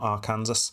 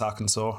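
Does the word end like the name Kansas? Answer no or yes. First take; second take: yes; no. First: The ending sounds like the name Kansas. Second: The ending does not sound like Kansas. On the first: The speaker calls it wrong. "and not Arkansas" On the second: The speaker calls it right. "exactly why it's Arkansas"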